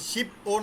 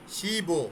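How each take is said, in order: First: A hard p is kept separate from the vowel. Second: The consonant links smoothly into the vowel as b. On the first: The speaker calls it wrong. "শিপ ও না কিন্তু।" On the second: The speaker calls it right.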